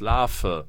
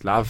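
First: The word begins with an f sound. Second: The word begins with a v sound. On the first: "Man spricht es natürlich mit dem Vogel-V aus" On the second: "vielleicht habe ich mich mein Leben lang geirrt"

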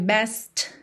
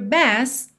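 First: The final T is clearly pronounced. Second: The final T is dropped and not heard. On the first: The speaker calls it wrong. "Você não ouve best" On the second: The speaker calls it right. "Você ouve when you try your best"

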